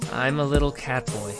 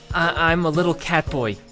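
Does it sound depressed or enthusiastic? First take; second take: depressed; enthusiastic. First: It is said in a depressed, flat tone. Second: It is said with lively enthusiasm.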